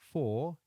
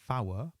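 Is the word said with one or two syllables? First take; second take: one; two. First: The word is said as one syllable. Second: The word is stretched into two syllables. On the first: This is the everyday English form. "Four is a new word" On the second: This is the form used on the radio in aviation. "a new word, fower"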